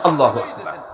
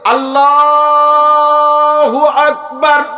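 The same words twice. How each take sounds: First: The whole phrase is said short and quick. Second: The word Allah is stretched out long.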